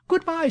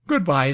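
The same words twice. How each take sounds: First: High-pitched, formal social farewell; society manner. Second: Said in the usual way. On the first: A narrator's reading. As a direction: switch instantly to a polite society goodbye, pitched high. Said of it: "instant assumption of society manner". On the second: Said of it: "said Colville".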